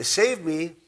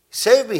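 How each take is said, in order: First: Said in the usual way. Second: Higher, louder desperate cry for help; shout. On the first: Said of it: "is not a, not very confident". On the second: A narrator's reading. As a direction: yell it like a sinking man. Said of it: "he, he, he shouted".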